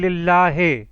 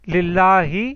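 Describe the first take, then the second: First: The word ends with an 'ay' vowel. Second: The word ends with an 'ee' vowel. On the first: The speaker calls it wrong. "ए नहीं है, क्योंकि अक्सर पाकिस्तानी करते हैं लिल्लाहे" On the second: The speaker calls it right. "इसकी जो सही प्रोनाउंसिएशन है वो ई है"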